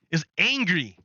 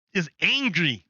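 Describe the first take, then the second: No difference in how they are said.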